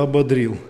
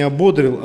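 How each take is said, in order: First: «ободрил» stressed on the last syllable, ободрИл; correct stress. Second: «ободрил» wrongly stressed on the middle о, обОдрил; misplaced stress. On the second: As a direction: say «ободрил» as обОдрил, stress on the second syllable. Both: Shown as a demonstration. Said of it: "правильно ставить ударение ... Правильно надо не".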